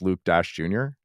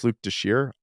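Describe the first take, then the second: First: The surname is said as two separate words. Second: The surname is said as one blended word. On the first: This is the common way people say it. The speaker calls it wrong. "Everybody thinks it's Luke Dash Junior" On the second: This is claimed to be the real way. The speaker calls it right. "No, it's Luke Deshire"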